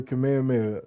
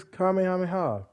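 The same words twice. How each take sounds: First: Said in the usual way. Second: "Kamehameha" said oddly, pitched higher; odd pronunciation. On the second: Real, not acted. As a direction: say "Kamehameha" in a raised, unusual way. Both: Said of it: "I said it like that".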